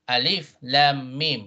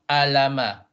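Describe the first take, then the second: First: Each letter is said by its full name. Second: The letters are blended as plain sounds. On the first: The speaker calls it right. "you pronounce the name of the letter, not how it sounds" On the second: The speaker calls it wrong. "It's not it's not alama"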